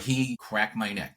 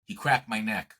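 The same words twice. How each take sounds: First: Slow, deliberate "He cracked my neck", leaning on "he cracked"; stress on cracked. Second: Said in the usual way. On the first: Shown as a demonstration. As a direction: spell out "cracked" slowly as the forbidden word, on purpose. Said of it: "We don't say crack". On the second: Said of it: "I'm gonna use a dirty word".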